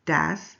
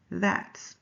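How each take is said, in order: First: DAS with a hard d in place of th; Spanish-accented th. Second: Said in the usual way. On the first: Shown as a demonstration. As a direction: say "das", opening on d rather than th. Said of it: "Mister Alvarez says". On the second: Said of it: "instead of".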